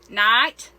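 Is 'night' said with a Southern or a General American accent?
Southern. It is said with a Southern drawl. The speaker calls it wrong. "instead of saying like"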